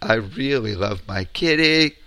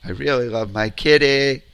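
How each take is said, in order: Both takes have the same delivery.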